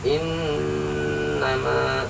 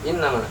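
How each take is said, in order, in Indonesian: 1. Huruf m ditahan dengan dengung sengau. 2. Huruf m pendek, tanpa dengung sengau. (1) "tapi innama, ya, ada dengung" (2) "bukan innama"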